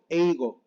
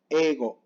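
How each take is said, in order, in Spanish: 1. Se marca mucho una i después de la e. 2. Una e larga, sin sonido de i. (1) "muy marcada la I" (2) "pero se pronuncia ego"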